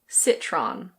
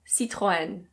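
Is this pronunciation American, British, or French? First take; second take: American; French. First: It is said with an American English pronunciation. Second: It is said with a French pronunciation. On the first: "In American English, people usually say Citron" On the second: "In French, this is pronounced Citroën"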